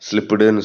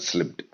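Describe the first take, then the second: First: An extra vowel is added after the final t. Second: It ends cleanly on the final t. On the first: The speaker calls it wrong. "ஸ்லிப்டுன்னு சொல்லலை" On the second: The speaker calls it right. "ஸ்லிப்ட் அவ்வளோதான்"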